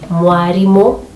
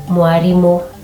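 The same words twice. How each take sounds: No difference in how they are said.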